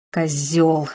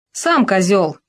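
First: Breathed in helpless fury. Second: Unbothered, even comeback; calm retort. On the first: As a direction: breathe it out in impotent rage. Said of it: "в бессильной ярости выдохнул Макс". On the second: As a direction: toss it back calmly. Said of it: "спокойно парировал Чепиков". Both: A narrator's reading.

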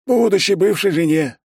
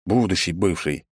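First: High, loud, chirpy character voice; eager correction. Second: Said in the usual way. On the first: A narrator's reading. Secretary readily correcting himself to the boss, high and eager. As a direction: repeat it high and all too willingly. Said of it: "охотно поправился этот".

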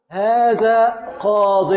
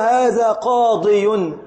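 First: "قاض" said very slowly, ending on ض with kasra, no final ي; shortened form. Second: "قاضي" said very slowly with the final ي kept; original form. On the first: Teacher contrasting the short form with its origin, slow demo. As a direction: draw out "هذا قاض" with the ي dropped. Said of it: "ما أصله؟". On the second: Teacher showing students the underlying form, slow demo. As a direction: stretch "هذا قاضي" and sound the ي clearly. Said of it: "أصله". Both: Shown as a demonstration.

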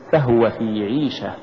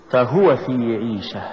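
First: فهو run together, weight on the ف; wrong stress. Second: فهو with ف set apart and هو pushed; push after fa. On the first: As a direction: say فهو as one word with no push on ه. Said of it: "ولا تقل". (نطق فهو ككلمة واحدة دون دفع الهاء) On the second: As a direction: lean on the ه in فهو. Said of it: "قل". (نطق فهو بدفع الهاء بعد الفاء) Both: Shown as a demonstration.

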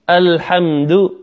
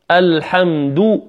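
First: "الحمد" slowly, ending on slack, muted "du"; unrounded final damma. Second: "الحمد" slowly, ending on full "duu"; rounded final damma. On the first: Teacher shows the weaker take, unrounded "du" in "الحمد". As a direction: keep lips back on the end of "الحمد". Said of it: "والأخرى لم أخرج الشفتين". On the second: Teacher has students hear the difference, rounded "du" in "الحمد". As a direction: round the lips on the last vowel of "الحمد". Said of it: "الحمد بإخراج الشفتين". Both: Shown as a demonstration.

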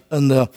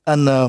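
No difference in how they are said.

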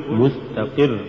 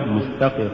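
First: مستقر with a clear stress on the qaf; slow مستقر, bring out the ق syllable. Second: Said in the usual way. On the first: Shown as a demonstration. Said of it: "تتضح نبرة القاف".

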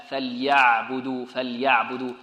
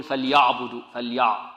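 First: فليعبدوا drawn out slowly with a thin, light ayn; light, softened ayn. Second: فليعبدوا with the ayn thickened, a mistake; heavy ayn. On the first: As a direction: say فليعبدوا keeping the ayn gentle and unthickened. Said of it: "لابد من تلطيفها". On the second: Teacher mimics students who thicken the letter, heavy ayn. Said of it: "ربما يفخمها". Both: Shown as a demonstration.

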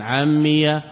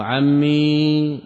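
First: عمي ending on a short open fatha; ʿammiya with fatha. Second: عمي drawn out very slowly, final ya held silent and still; ʿammī with final sukun. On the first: Teacher contrasting the fatha reading of the vocative, crisp. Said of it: "بالفتح". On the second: Teacher showing students the sukun reading, slow and drawn out. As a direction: stretch عمي slowly, ending on a bare sukun. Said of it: "ها، بالإسكان". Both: Shown as a demonstration.

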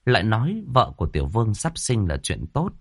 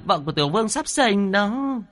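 First: Said in the usual way. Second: High, thin urgent call about the birth; shrill cry. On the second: A narrator's reading. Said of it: "the thé giọng kêu to". (the thé kêu gấp)

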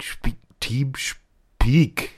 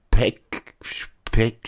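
First: "Speak" drawn out slowly the English way, with a long ee; corrected pronunciation. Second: "Speck" said like the German word for bacon, with a short e; mispronounced word. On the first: Assistant finally getting Teamspeak right, slow and deliberate. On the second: Assistant fumbling the name Teamspeak, saying "Speck". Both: Shown as a demonstration.

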